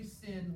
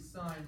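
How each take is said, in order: First: The vowel is a short i sound. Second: The vowel is a long i sound. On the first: The speaker calls it wrong. "we don't say sin" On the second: The speaker calls it right. "we say sine with a long I"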